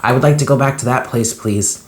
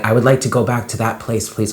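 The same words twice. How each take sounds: First: Higher, quicker pleading with a catch; pleading, choked up. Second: Said in the usual way. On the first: Retold or imitated. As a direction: beg to go back, near tears. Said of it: "I'm getting choked up". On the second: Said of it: "I was saying to myself".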